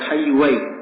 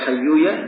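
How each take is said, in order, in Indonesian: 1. Nama itu berakhir dengan bunyi 'ai'. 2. Nama itu berakhir dengan bunyi 'a' biasa. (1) "bisa dibaca Hayyuwai" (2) "Bisa dibaca Hayyuya"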